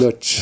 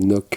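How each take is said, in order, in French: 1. Le mot se termine par un son 'ch'. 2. Le mot se termine par un son k dur. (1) "Donc ça se dit" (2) "Au début, je crois que ça se disait Noc, mais non"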